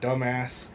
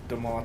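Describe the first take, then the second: First: The name sounds like the word 'dumbass'. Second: The name sounds like 'doo-mahs', not 'dumbass'. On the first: The speaker calls it wrong. "It's not actually how you say it" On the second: The speaker calls it right. "It's Dumas"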